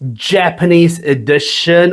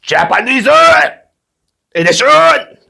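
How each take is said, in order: First: Said in the usual way. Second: High sing-song put-on Japanese accent; playful Japanese accent announcement; mock Japanese accent. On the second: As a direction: lightly mimic a Japanese announcer. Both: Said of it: "or should I say".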